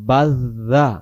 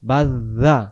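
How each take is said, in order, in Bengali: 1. মাঝের ব্যঞ্জনটি নরম, জিভের ডগা থেকে। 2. মাঝের ব্যঞ্জনটি নরম, জিভের ডগা থেকে।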